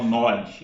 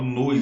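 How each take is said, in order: First: The vowel is open and stressed. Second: The vowel is closed and unstressed. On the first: The speaker calls it wrong. "eu não falo nós" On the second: The speaker calls it right. "eu falo nos"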